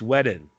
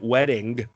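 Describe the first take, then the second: First: The ending drops the g sound. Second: The ending is said as a full ing. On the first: The speaker calls it right. "we don't say ings here" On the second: The speaker calls it wrong. "it's not wedding"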